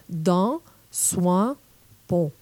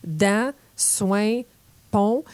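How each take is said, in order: First: «dent», «soin», «pont» said further forward, the France way; French-from-France vowels. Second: «dent», «soin», «pont» with Quebec nasal vowels. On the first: Teacher imitates how the French say these words, France vowels. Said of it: "les Français diraient". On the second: Teacher shows how Quebecers say these words, Quebec nasal vowels. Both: Shown as a demonstration.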